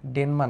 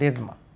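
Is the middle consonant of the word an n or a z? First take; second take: n; z. First: The middle consonant is an n sound. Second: The middle consonant is a z sound. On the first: The speaker calls it wrong. "ডেনমা না" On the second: The speaker calls it right.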